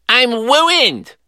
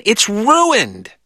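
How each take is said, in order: First: Put-on "wooined" with a w for the r, high toddler voice; "I'm wooined" as Elmer Fudd, w sound; says w for r. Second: "ruined" with a clear r, corrective; "It's ruined" said slow and correct; correct r sound. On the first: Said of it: "He sounded like Elmer Fudd". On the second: Retold or imitated. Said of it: "said Glenn".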